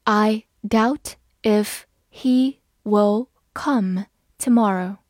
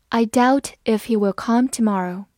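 First: Very slow, word by word; slow read. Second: Said in the usual way. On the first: Shown as a demonstration. Teacher modelling the sentence for students, slow and clear. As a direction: take it slowly so learners can follow. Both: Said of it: "好，我们慢慢来读".

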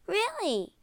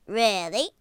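First: "Really" pitched high, falling at the end; confirming "Really". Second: "Really" as a king's question, rising at the end. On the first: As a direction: affirm "Really" in a high princess voice. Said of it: "she said". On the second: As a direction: ask "Really" with a doubting lift. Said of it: "said the king". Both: A narrator's reading.

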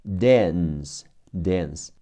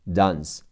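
First: "dance" with a front a, as in cat; American "dance", first drawn out, then whole; American pronunciation. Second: "dance" with an open ah vowel; "dance" the British way, broad a; non-American pronunciation. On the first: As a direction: say "dance" the American way, vowel toward eh. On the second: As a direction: say "dance" as dahns. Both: Shown as a demonstration. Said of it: "美式发音是的".

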